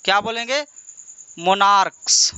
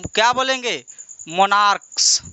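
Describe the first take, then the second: No difference in how they are said.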